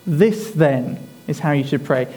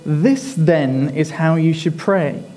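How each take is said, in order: First: Said in the usual way. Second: Slow with the stress on "This", falling at the end; slow, weighted reading. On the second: Shown as a demonstration. Preacher drawing the church's attention to the words, slowly stressing "This". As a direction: lean on "This" and let each word land slowly. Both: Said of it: "Notice how he says".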